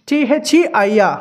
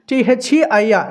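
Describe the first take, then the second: No difference in how they are said.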